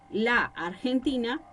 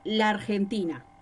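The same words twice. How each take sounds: First: The two a vowels are kept separate. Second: The two a vowels run together as one. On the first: The speaker calls it right. "en vez de decir la Argentina" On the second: The speaker calls it wrong. "todo junto"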